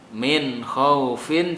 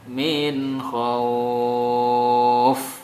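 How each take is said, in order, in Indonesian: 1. Frasa ini berakhir dengan vokal pendek dan n. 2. Frasa ini berakhir dengan konsonan saja.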